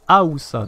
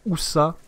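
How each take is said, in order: First: The word starts with a clear a sound. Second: The word starts directly with an oo sound. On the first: The speaker calls it right. "il faut bien prononcer le A" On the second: The speaker calls it wrong. "j'avais l'impression que je disais"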